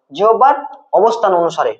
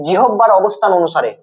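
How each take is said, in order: First: জিহ্বার held up, pause, অবস্থান অনুসারে falling; dictation pause. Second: Said in the usual way. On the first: Shown as a demonstration. Teacher repeats it for dictation. (জিহ্বার, থেমে, অবস্থান অনুসারে)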